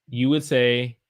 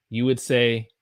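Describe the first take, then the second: Both takes have the same delivery.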